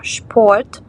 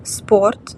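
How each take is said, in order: First: Шпорт starting with a clear SH before the P; correct shp sound. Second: Спорт said with a plain S at the start, the wrong way; спорт with an ordinary S sound, as a mistake. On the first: Teacher correcting students, шпорт said with SH. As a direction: say шпорт as SHport, stressing the SH sound. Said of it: "а шпорт". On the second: Teacher demonstrating students' common mistake, спорт said with S. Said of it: "не спорт". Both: Shown as a demonstration.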